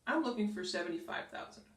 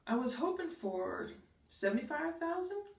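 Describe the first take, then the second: First: It sounds strong and sure. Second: It sounds weak and unsure.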